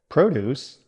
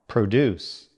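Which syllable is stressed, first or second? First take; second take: first; second. First: The stress is on the first syllable. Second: The stress is on the second syllable. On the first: It is a noun meaning farm goods. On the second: It is a verb meaning to make.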